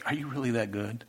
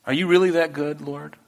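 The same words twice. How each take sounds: First: Soft, hushed, stunned question; awed, near tears. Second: The same question in a fuller, pleading voice; earnest plea. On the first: Believer weeping to God after a surprise blessing, hushed. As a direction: barely voice it, overwhelmed. You start bawling. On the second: Believer asks the Lord again, earnest and fuller. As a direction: ask it again, openly and sincerely. You're like. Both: Retold or imitated.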